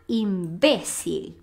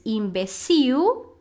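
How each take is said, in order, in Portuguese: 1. A sílaba tônica é a segunda. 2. A sílaba tônica é a última. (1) "mas em espanhol a gente fala imbécil" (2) "A gente fala em português imbecil"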